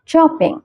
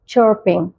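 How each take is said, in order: First: It is said in a British accent. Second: It is said in an American accent. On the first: "मैं British accent follow करती हूँ" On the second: "अगर आप American accent follow करते हैं तो आप इसे प्रोनाउंस कर सकते हैं"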